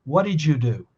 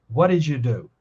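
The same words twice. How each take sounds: Both takes have the same delivery.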